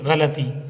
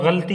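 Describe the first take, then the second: First: A short a vowel separates l and t. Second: The l runs straight into the t. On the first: The speaker calls it right. "गलती गायन पर ज़बर, लाम पर भी ज़बर" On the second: The speaker calls it wrong. "लोग गलती बोल देते हैं जो गलत है"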